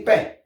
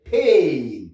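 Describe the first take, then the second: First: "pain" with a short nasal vowel, silent N; French nasal pronunciation. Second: "pain" as long falling AY with sounded N; English pronunciation. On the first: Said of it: "Si en français". (« pain » à la française, nasalisé) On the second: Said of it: "Si en anglais". (« pain » à l'anglaise, allongé, N prononcé) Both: Shown as a demonstration.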